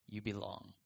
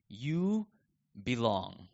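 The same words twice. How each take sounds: First: Much softer, near-hushed echo; soft repeat. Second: Said in the usual way. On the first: Shown as a demonstration. Pastor assures doubting believers they belong, softly repeated. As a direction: let it land gently, softer.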